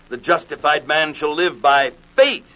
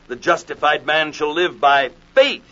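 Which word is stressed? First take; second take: faith; faith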